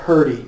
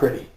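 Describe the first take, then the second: First: The word is said in a drawled 'purdy' form. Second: The word is said in its standard 'pretty' form. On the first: The speaker calls it right. "I said purdy" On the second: The speaker calls it wrong. "not pretty"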